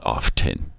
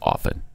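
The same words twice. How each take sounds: First: The T sound is clearly pronounced. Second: The T sound is left silent. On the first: The speaker calls it wrong. "not often" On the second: The speaker calls it right. "you don't pronounce the T in often. It's often"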